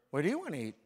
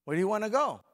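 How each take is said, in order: First: Lightly voiced wife, a little louder; a hint of the wife asking where to eat. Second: Higher, louder imitation of the wife; wife asking again. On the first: Husband mimics his wife asking where to eat, lightly voiced. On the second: Preacher mimics the wife asking, higher and louder. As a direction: push the wife's question up and out. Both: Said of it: "what's the first thing she's gonna say".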